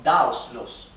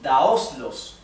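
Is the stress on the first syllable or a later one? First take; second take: first; later. First: The stress falls on the first syllable. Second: The stress falls after the first syllable. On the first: The speaker calls it right. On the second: The speaker calls it wrong.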